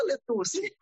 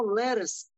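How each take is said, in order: First: "letuce" mispronounced as spelled, "le-TU-si"; read as spelled. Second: "leras" said as American English lettuce, "LEH-rus"; English pronunciation. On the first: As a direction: ask with a naive Portuguese reading of "letuce". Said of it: "leros escreve letuce". ("letuce" à brasileira, "le-TU-si") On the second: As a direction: stress the first syllable of "leras", with a flapped t. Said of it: "Aí a pessoa falou assim". ("leras" com pronúncia americana de lettuce) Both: Retold or imitated.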